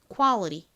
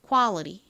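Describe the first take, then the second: First: The middle t is flapped, sounding like r. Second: The middle t is flapped, sounding like r.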